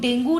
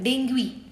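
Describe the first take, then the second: First: The word ends in a plain 'oo' sound. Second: The word ends in an 'oo-ee' sound. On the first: The speaker calls it wrong. "डेंगू नहीं बोला जाता है" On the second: The speaker calls it right. "उसको डेंगुई बोला जाता है।"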